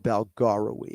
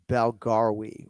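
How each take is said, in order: First: The surname is said with four syllables. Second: The surname is said with three syllables. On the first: "It could be three or four syllables" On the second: "It could be three or four syllables"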